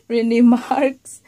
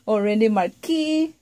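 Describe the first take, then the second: First: The surname is one syllable, like 'marks'. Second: The surname has two syllables, like 'mar-kee'. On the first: "Either you pronounce it Mister Mar, um, Mister Marks, Rene Marks" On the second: "or Rene Marquis, Rene Marquis. You know, acceptable"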